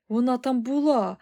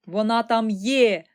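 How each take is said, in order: First: Raised, emphatic exclamation; higher, loud insistence on "була"; exclaiming boy. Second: "є" stretched loud and emphatic; slow correction landing on a drawn-out "є"; correcting with stress. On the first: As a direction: cry out "була" as a revelation. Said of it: "вигукнув Чарлі". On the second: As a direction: correct them, leaning hard on "є". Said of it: "уточнив містер Вонка". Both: A narrator's reading.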